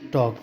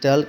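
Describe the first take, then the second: First: The l is silent with a long aw vowel. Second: The l is sounded after a short vowel. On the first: The speaker calls it right. "टॉक पढ़ेंगे" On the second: The speaker calls it wrong. "टल्क नहीं पढ़ेंगे ... गलत हो जाएगा"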